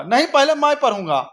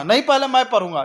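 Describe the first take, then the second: First: Mock kid insisting, pitched higher; the comeback that tops the last one; hammed-up pretend quarrel, pushed further; escalating squabble. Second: Mock kid insisting, a bit higher; light pretend quarrel, first retort; childish squabble. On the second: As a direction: play the other kid grabbing the paper. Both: Two kids fight over newspaper.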